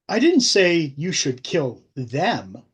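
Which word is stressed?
them. The word 'them' is stressed.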